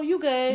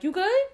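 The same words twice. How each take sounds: First: It sounds light, easygoing and reassuring. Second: It sounds caring and worried. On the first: It means no problem. "So it also means no problem" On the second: The speaker asks whether the other person is okay. "if one of your friends don't look like they're okay"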